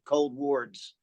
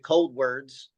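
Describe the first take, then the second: First: The second word sounds like 'wards'. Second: The second word sounds like 'words'. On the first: This is how the band first pronounced its name. "when we first named the band, we did pronounce it Cold Wards" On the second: This is the band's current pronunciation. "we decided as a band to change it to Cold Words"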